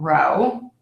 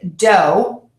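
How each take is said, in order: First: The word begins with an R sound. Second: The word begins with a D sound. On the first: The speaker calls it right. "instead of" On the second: The speaker calls it wrong. "I'll hear D"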